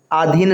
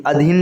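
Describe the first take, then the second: First: अधीन said as "aadheen", long first aa; wrong long vowel. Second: अधीन said as "adheen", short first a; correct short vowel. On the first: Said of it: "नहीं". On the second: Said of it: "लिखेंगे". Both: Shown as a demonstration.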